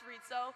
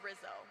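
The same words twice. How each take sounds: First: The first syllable does not sound like 'rizz'. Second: The first syllable sounds like 'rizz'. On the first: The speaker calls it right. "it's pronounced Rizzo" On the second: The speaker calls it wrong. "a lot of you like to say Rizzo"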